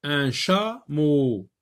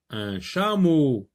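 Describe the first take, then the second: First: "Un chameau" said slowly with ch clear; slow clear word. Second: Said in the usual way. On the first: Shown as a demonstration. Teacher modelling the word slowly for pupils.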